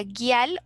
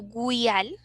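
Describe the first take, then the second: First: "guial" with hard g, u silent; first reading of "guial", plain hard g before i; pronunciation with silent u. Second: "guial" with a w glide, like güial; pronunciation with sounded u. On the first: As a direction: say "guial" as gui-AL, no w sound. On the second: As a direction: say the u in "guial": gwi-AL. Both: Shown as a demonstration. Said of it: "no sé si se pronuncia".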